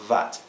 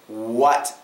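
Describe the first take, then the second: First: It begins with a V sound, teeth on lip. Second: It begins with a W sound, no teeth. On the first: The speaker calls it wrong. "Not vat, not vat. It's going to sound like a V" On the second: The speaker calls it right. "It should be like this. W"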